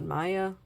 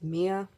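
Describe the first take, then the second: First: The name starts with an 'eye' vowel sound. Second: The name starts with an 'ee' vowel sound. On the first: The speaker calls it wrong. "not Maya" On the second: The speaker calls it right. "her actual name is Mia"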